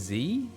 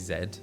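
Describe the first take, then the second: First: The letter is said as 'zee'. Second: The letter is said as 'zed'. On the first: This is the American way to say it. "grew up saying Z ... it's how Americans say it" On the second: This is the British way to say it. "so in the U K, we say Z"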